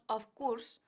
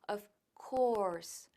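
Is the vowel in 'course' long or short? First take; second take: short; long. First: The vowel in 'course' is short. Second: The vowel in 'course' is a long O. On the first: The speaker calls it wrong. "no decimos of course" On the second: The speaker calls it right. "Course es una O larga"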